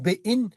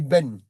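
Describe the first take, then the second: First: The vowel ends with a y glide. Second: The vowel is plain with no y glide. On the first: The speaker calls it wrong. "il ne faut pas dire Béin" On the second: The speaker calls it right. "Il faut dire ben"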